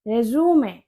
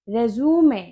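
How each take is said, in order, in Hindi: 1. यह तीन शब्दांश में बोला जाता है, अंत 'may' है। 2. यह तीन शब्दांश में बोला जाता है, अंत 'may' है।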